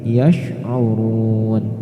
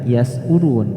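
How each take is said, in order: First: The consonant after 'ya' is an sh sound. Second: The consonant after 'ya' is a thin s sound. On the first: The speaker calls it right. "tapi yash'urun" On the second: The speaker calls it wrong. "Tidak dibaca yas'urun"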